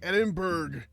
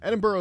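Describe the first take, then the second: First: The name is said in an American way. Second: The name is said the local way. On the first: The speaker calls it wrong. "He was like Edinburgh. ... that's how I say it in my accent because I'm an American" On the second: The speaker calls it right. "Edinburgh is how you say it"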